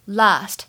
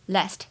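First: It has a long, open 'ah' vowel. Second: It has a short, flat 'a' vowel as in cat. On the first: "在英式的发音过程当中呢，发的是长元音的a" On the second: "而美音呢读作梅花音"

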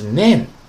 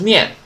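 First: It is said as the Japanese syllable nen. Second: It is said like the Mandarin syllable nian. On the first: The speaker calls it right. "是nan" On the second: The speaker calls it wrong. "不要读成念，不是念啊"

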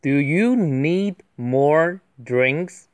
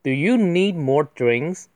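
First: It is read at a slower pace. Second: It is read at a faster pace.

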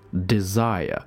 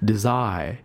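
First: The open vowel returns to a throat sound. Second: The open vowel glides straight off without returning. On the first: The speaker calls it right. "要把嘴巴张大，然后要回到哪里呢？回到你的喉咙上面" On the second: The speaker calls it wrong. "你不能没有这个然后就滑出去了"

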